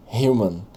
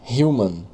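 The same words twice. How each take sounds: The two takes are said the same way.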